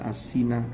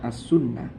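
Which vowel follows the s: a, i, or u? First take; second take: i; u. First: The vowel after the s is i. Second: The vowel after the s is u, with doubled n. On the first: The speaker calls it wrong. "bukan dibaca as-sinah" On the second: The speaker calls it right. "tapi dibaca as-sunnah"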